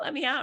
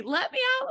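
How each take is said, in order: First: Begging, coming down. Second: Panicked begging. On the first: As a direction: let me out, higher but sinking from the shriek. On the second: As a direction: Let me out shrieked very high in panic. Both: Retold or imitated. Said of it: "begging for mercy".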